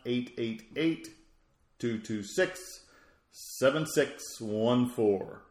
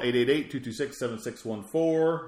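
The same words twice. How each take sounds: First: The number is said more slowly. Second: The number is said at normal speed.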